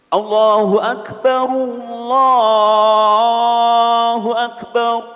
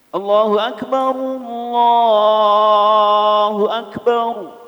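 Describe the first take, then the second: Both takes have the same delivery.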